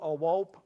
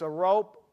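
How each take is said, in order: First: The word is said the way small children say it. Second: The word is said the ordinary adult way.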